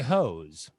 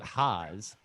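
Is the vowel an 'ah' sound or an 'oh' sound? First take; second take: oh; ah. First: The vowel is an 'oh' sound, like 'hose'. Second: The vowel is an 'ah' sound, like 'Haas'. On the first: The speaker calls it right. "It's I hose" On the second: The speaker calls it wrong. "not Haas"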